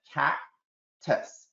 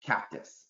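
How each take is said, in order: First: Slow and deliberate, cactus drawn out; slow modelling voice. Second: Cactus said quietly, run together as one word; blended cactus. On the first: Teacher modelling blending to students, slow and deliberate. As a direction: slowly give the kids the word cactus. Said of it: "do blending first". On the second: Child blending the syllables back, quiet cactus. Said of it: "They put it together". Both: Shown as a demonstration.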